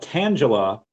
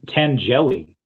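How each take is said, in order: First: The name ends with an 'ah' sound. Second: The name ends with an 'ee' sound. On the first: The speaker calls it right. "it's like Angela with a T in front" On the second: The speaker calls it wrong. "he called it um tan Tangeli"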